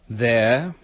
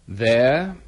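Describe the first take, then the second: The two takes are said the same way.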